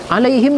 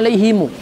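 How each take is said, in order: First: The word ends on the consonant m. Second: The word ends with an added u vowel.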